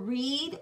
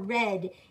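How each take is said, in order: First: The vowel is a long E sound. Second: The vowel is a short E sound. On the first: "pronounced with a long E for read" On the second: "a short E for, for red"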